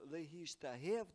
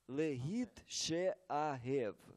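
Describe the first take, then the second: First: The sounds are merged into one word. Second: The sounds are split into two parts. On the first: This is the smoothed form used for ease of reading. "То есть мы говорили, что «легиштагев»" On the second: This is the literal form that follows the spelling. "Но правильное написание этого слова «легит шеагев»"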